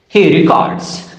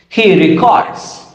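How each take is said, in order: Both takes have the same delivery.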